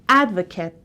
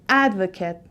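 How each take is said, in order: The two takes are said the same way.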